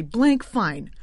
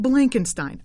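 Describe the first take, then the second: First: "Blank Fine" as two syllables, ending like "fine"; corrected surname. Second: "Blankenstein" said with an extra middle syllable and a "stine" ending; misspoken surname. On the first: Host apologising for the slip, corrected "Blank Fine" in two syllables. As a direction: correct yourself to "Blank Fine", falling at the end. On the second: Host naming Goldman's boss, "Blankenstein" as a three-syllable slip. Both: Real, not acted. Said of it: "Uh, I'm sorry".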